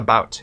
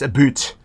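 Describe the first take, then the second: First: The word is said with an American vowel. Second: The word is said with a Canadian vowel. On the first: The speaker calls it wrong. "Americans don't say it right. It's not about" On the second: The speaker calls it right. "Matthew's Canadian too. It's About"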